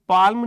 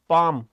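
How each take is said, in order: First: The L sound is pronounced in the word. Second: The L sound is silent in the word. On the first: The speaker calls it wrong. "ये पाल्म नहीं होता" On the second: The speaker calls it right. "मतलब इसका एल silent होता है"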